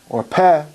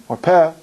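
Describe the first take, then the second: No difference in how they are said.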